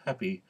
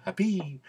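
First: Said in the usual way. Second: HAPPY with a high, tense final "ee"; emphatic E. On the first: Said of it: "for the normal situations". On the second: Shown as a demonstration. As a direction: lean on the last syllable, "hap-PEE". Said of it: "emphatic E".

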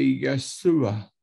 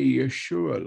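First: Yeshua said the Aramaic way, yeh-SOO-ah with a plain s; Aramaic pronunciation. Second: Yeshua said the Hebrew way, yuh-SHOO-ah with a sh sound; Hebrew pronunciation. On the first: Preacher showing his Aramaic Yeshua, with a plain s sound. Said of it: "We say Yeshua". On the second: Preacher showing how Hebrew says Yeshua, with a sh sound. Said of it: "In Aramaic, we don't say Yeshua like in Hebrew". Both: Shown as a demonstration.

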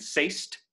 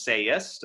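First: "say'st" as a single rising beat; one syllable. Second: "sayest" opened out as SAY-est; two syllables. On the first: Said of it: "that's actually one syllable". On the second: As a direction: add the E, "sayest" in two beats. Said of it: "if you add that E". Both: Shown as a demonstration.

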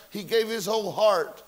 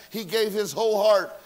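No difference in how they are said.

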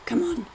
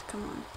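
First: High, urgent plea; high-pitched burst of impatience; impatient exclamation. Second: Soft, low grumble; quiet, weary plea; muttered impatience. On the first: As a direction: urge it on in a higher pitch. Repeats it more urgently. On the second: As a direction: mutter it under your breath. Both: Real, not acted.

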